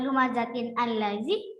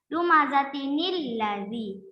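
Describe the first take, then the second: First: The two words are said separately, without linking. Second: The words are joined with an inserted ni sound. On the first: "yang awalnya" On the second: "makanya dibaca"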